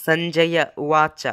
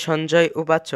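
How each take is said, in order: First: সঞ্জয়া উবাচ as san-ja-ya u-wa-cha; true pronunciation. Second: Said in the usual way. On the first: Shown as a demonstration. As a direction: open সঞ্জয়া with s and voice its last vowel. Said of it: "প্রকৃত উচ্চারণ হলো". (সঞ্জয়া উবাচ, দন্ত্য স ও পূর্ণ শেষ স্বরে) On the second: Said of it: "কিন্তু তার প্রকৃত উচ্চারণ".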